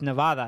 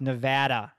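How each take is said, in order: First: It is said with a Spanish pronunciation. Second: It is said with an American English pronunciation. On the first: This is the original form of the name. "In the original Spanish" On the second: This is how locals say it. "It's pronounced Nevada"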